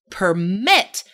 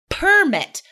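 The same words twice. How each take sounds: First: The stress is on the second syllable. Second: The stress is on the first syllable. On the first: It is a verb. "If the word is a verb, the second syllable is stressed" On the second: It is a noun. "if the stress is on the first syllable, attribute, permit, those are nouns"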